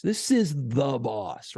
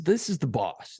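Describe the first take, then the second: First: "the" drawn out slowly for weight; stress on THE. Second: Said in the usual way. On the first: Shown as a demonstration. Telling co-host who really runs the stations, slow stress on "the". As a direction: lean hard and long on "the". Repeats it to underline the rank.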